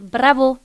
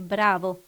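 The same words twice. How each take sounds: First: The stress is on the last syllable. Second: The stress is on the first syllable. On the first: The speaker calls it wrong. "vous dites « bravo », Vous mettez l'accent toujours sur la dernière syllabe" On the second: The speaker calls it right. "alors que c'est « bravo », pour nous, c'est l'avant-dernière"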